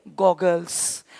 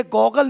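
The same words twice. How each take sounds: First: गॉगल्स said with a clear final s, dropped low and soft; correct plural form. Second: गॉगल said without final s, ending on the l; the rejected form गॉगल, no s sound; wrong singular form. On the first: Teacher giving students the right plural, quietly. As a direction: land on the s of गॉगल्स, softly. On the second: Teacher showing students the wrong word, plain. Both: Shown as a demonstration. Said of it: "इसलिए गॉगल नहीं बोलते".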